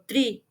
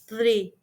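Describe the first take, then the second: First: The word begins with a t sound. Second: The word begins with a th sound. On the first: The speaker calls it wrong. "the sound with S or T" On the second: The speaker calls it right. "the correct pronunciation is three"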